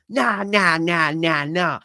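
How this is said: It is said in a put-on Cockney accent.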